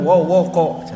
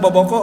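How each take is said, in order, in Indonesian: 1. Kata ini diawali bunyi W. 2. Kata ini diawali bunyi B. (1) "guru kami menjelaskan sawo Walanda dina waskom gigireun wowoko" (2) "Apal tuh baskom sareng boboko"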